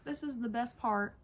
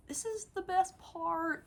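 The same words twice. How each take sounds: First: Said in the usual way. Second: High, eager build-up; thrilled reveal; excited squeal. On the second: Real, not acted. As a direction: tease the best bit with glee. Excited intro to the toy.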